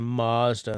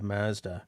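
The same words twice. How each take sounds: First: The first vowel is overdone and drawn out. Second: The first vowel is plain and not overdone. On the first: This is how Americans say it. The speaker calls it wrong. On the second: This is how it is said in Japan. The speaker calls it right.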